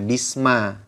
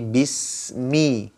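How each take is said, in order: First: The word ends with an 'a' vowel. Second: The word ends with an 'i' vowel. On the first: The speaker calls it wrong. "tidak dibaca bisma" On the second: The speaker calls it right. "Tapi bismi"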